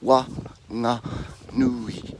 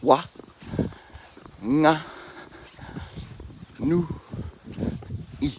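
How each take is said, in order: First: The syllables are run together more quickly. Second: Each syllable is said separately with pauses. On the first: "We'll just say it quicker" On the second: "So we do that again"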